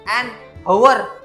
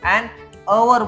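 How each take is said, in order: First: The word hour begins with an h sound. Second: The word hour begins with a vowel sound. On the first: The speaker calls it wrong. "An हवर असं नाही बोलत आपण" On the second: The speaker calls it right. "An अवर बोलतो"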